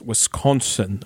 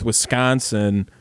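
First: The O and N are strongly emphasized, outsider style. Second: It is said softly, Wisconsin local style.

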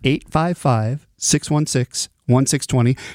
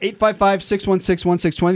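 First: It is said more slowly. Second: It is said very fast.

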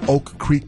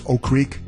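First: The k of the first word is clearly pronounced. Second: The k of the first word is dropped. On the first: The speaker calls it right. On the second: The speaker calls it wrong.

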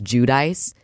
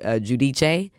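First: The name is said with an American pronunciation. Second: The name is said with an Italian pronunciation. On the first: It is the anglicized form of the name. "That's the Americanized version" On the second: It is the original form of the name. "the Italian way of saying it is Giudice"

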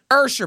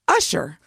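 First: The name is said differently from its spelling. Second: The name is said just as it is spelled. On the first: The speaker calls it right. "It's not Usher. It may be spelled like Usher" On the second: The speaker calls it wrong.

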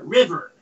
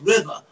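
First: The final R sound is clearly pronounced. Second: The final R sound is dropped. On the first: This is how the speaker's own area says it. "We pronounce the R at the end on river" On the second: This is how the mocking outsiders say it. "they say it's river"

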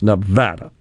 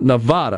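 First: It uses the pronunciation locals use. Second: It uses a pronunciation locals do not use. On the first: The speaker calls it right. "Nevadans say that is the way you pronounce Nevada" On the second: The speaker calls it wrong. "not Nevada, which I do a lot"

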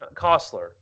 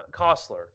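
First: The name is said with a changed vowel sound. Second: The name is said with a changed vowel sound.

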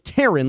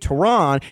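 First: The name sounds like the name Taryn. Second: The name does not sound like Taryn. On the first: "I'm pronouncing it as if it's Taron, like T-A-R-Y-N" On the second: "but it may very well be Taron"

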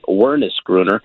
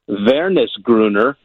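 First: The name is said with an American accent. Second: The name is said with a German accent. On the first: "here in American, we might say Wernesgrüner" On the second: "I'm going to put a little German accent on it"

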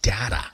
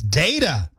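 First: The first vowel is a short A. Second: The first vowel is a long A. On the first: The speaker calls it wrong. "So stop saying data" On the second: The speaker calls it right. "it's a long A sound"

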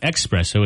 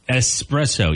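First: It begins with an added 'ex' sound. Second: It begins with a plain 'es' sound. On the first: The speaker calls it wrong. "People add the X. It's not there. It's not espresso" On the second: The speaker calls it right. "It's espresso, E-S-P-R"

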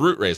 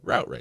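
First: Route sounds like root, rhyming with boot. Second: Route sounds like rout, rhyming with out. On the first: "I'd think, the roots of a plant?" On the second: "I would just think of it as a Route Race"

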